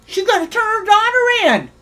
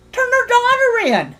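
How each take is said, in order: First: Said in the usual way. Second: Pitched much higher in disbelief; incredulous echo. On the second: Real, not acted. Streamer mocking a rival's threat in disbelief. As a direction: repeat it as if it's absurd.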